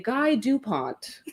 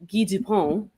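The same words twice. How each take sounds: First: The surname is pronounced the English way. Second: The surname is pronounced the French way. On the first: This is how people from the guest's home say it. "he's from a place where you would say Guy Dupont" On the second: This is how people from the host's home city say it. "we are from a place where you would say Guy Dupont"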